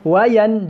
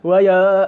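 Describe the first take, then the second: First: The n is pronounced fully and clearly. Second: The n is hidden and barely heard. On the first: The speaker calls it right. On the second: The speaker calls it wrong. "Dia tak juga sembunyi di antara nun dengan dengan hamzah"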